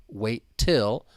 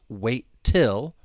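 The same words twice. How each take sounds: The two takes are said the same way.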